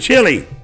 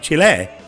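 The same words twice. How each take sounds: First: It is pronounced the English way, like chilly. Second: It is pronounced the Spanish way, like chee-leh. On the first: The speaker calls it wrong. "I'm not saying that correctly" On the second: The speaker calls it right. "It's supposed to be Chile"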